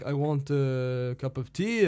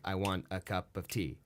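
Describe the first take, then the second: First: It is said in a French manner. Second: It is said in an English, iambic rhythm.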